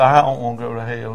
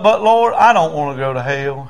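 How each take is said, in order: First: Mild imitation of a crying man; subdued, understated repeat; tearful repetition. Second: Raised opening, easing down; leading a prayer. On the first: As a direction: echo the plea meekly. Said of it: "He's crying". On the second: Retold or imitated. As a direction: cry out the prayer line. Preacher leads prayer for repeating.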